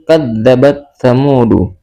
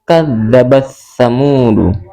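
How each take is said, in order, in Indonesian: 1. Huruf t dibaca sebelum bunyi th. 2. Huruf t dihilangkan dan digabung ke dalam th. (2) "Ta-nya kita hilangkan dan kita masukkan ke huruf tha. Jadi membacanya langsung"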